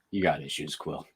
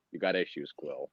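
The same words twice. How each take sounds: First: Low, soft offhand delivery through a laugh; mock the careless tone; nonchalant. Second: Low, much softer deadpan line; nonchalant. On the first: Imitating the character's nonchalant line to Quill. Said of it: "says it so nonchalantly". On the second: Retold or imitated. Movie character telling Quill off, flat and offhand. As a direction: toss it off with total indifference. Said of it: "he was like".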